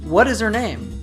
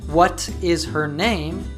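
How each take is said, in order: First: The T becomes D and the H is dropped. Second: Each word is said fully, with clear T and H. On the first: "we say" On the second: "instead of"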